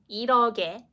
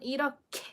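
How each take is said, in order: First: The middle consonant is plain, without aspiration. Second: The middle consonant is strongly aspirated. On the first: The speaker calls it wrong. "Number one, is it like" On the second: The speaker calls it right. "We need to pronounce it in an aspirated way"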